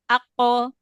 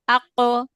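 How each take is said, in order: The two takes are said the same way.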